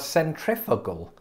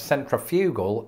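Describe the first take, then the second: First: "centrifugal" said the American way, sen-TRIF-uh-gul; American pronunciation. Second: "centrifugal" said the British way, sen-tri-FYOO-gul; British pronunciation. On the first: Host explaining what he learned, American "centrifugal". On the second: Host explaining what he learned, British "centrifugal". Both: Shown as a demonstration. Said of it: "Americans pronounce centrifugal as centrifugal".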